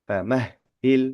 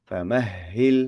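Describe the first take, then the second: The two takes are said the same way.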